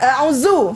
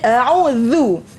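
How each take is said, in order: First: The consonant is a buzzing 'z' behind the teeth. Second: The consonant is 'dh' with tongue between teeth. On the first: The speaker calls it wrong. "bukan a'udzu. Kalau bunyi zu tu salah" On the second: The speaker calls it right. "mesti keluarkan hujung lidah, letak dekat depan gigi depan"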